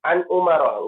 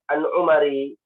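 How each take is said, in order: First: The name ends with an a vowel. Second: The name ends with an i vowel. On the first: The speaker calls it right. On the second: The speaker calls it wrong.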